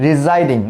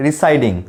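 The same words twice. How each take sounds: First: Residing said ree-ZYE-ding with a z sound; teacher models Residing with a buzzing z; correct residing. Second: Residing said ree-SYE-ding with a hissing s; the mistaken residing with a plain s sound; wrong residing. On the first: Teacher shows students the right Residing, z sound. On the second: Teacher shows students the wrong residing, s sound. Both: Shown as a demonstration. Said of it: "not residing".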